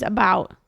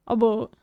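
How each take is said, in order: First: Said in the usual way. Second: "A boot" with a long oo in place of ow; mock-Canadian "A boot", rhyming with hoot; exaggerated Canadian vowel. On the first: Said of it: "Versus about". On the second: Shown as a demonstration. Streamer contrasting two accents, exaggerated Canadian "A boot" with oo. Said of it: "That's exaggerated, though".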